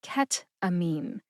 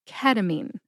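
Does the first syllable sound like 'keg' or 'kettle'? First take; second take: kettle; keg. First: The first syllable is a closed 'ket', like kettle. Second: The first syllable is an open 'keh', like keg. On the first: The speaker calls it wrong. "like ket as in kettle" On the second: The speaker calls it right. "ke, like a keg of beer"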